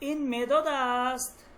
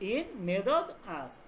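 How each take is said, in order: First: It is said with a question intonation. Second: It is said with a statement intonation. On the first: It asks a question. "বাক্যটা তখন প্রশ্নবোধক বাক্য হয়ে যাচ্ছে" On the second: It states a fact. "এটা জুমলা হয় খাবারি, সাধারণ একটা বাক্য"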